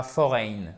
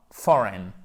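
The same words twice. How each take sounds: First: FOREIGN as fo-RAIN; wrong pronunciation. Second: FOREIGN as FOR-en; correct pronunciation. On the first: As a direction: give "foreign" a full diphthong at the end. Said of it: "Et pas foreign". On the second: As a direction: stress the start of "foreign", reduce the ending. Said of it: "Non, foreign". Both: Shown as a demonstration.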